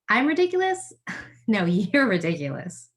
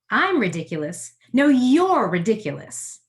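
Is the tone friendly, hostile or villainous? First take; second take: friendly; villainous. First: It sounds friendly and playful, as to a friend. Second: It sounds villainous, addressing a booing crowd.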